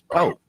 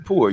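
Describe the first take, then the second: First: The word ends on a vowel without r. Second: The word ends with an audible r sound. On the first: "You say y'all was po" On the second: "You don't say poor"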